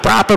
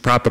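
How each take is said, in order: First: It is said in a Brooklyn accent. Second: It is said in a plain American accent.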